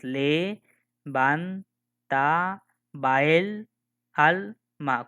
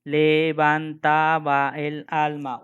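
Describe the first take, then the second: First: Le van ta ba el al ma, each syllable apart with pauses; split into syllables. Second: Slow reading. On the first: Teacher counting syllables for students, each one spoken separately. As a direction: tap out "le, van, ta, ba, el, al, ma" one beat at a time. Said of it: "Voy a decir entonces". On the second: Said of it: "Por ejemplo, dice". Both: Shown as a demonstration.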